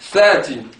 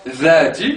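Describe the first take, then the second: First: The first consonant is hissing, like 'th' in 'thin'. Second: The first consonant is buzzing, like 'th' in 'this'. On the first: The speaker calls it right. "je dis thati" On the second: The speaker calls it wrong. "Je ne dis pas dhati"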